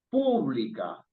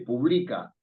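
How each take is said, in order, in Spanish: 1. El acento cae en la primera sílaba. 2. El acento cae después de la primera sílaba. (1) "sino dice pública. Está en la antepenúltima" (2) "ni dice publica"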